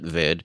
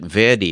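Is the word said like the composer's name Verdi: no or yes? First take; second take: no; yes. First: It is not said like the composer's name. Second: It is said like the composer's name. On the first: "I think you pronounce it Verde" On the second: "You may pronounce it Verdi, like the composer"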